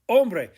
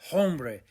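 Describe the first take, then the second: First: The word starts directly with the vowel sound. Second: The h sound is pronounced at the start. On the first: The speaker calls it right. "It's silent" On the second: The speaker calls it wrong. "You don't say hombre"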